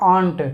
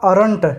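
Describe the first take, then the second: First: No r sound comes before the n. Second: An r sound comes before the n. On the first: The speaker calls it right. "ये होता है आंट" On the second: The speaker calls it wrong. "Sorry आर not का अरंट नहीं होता"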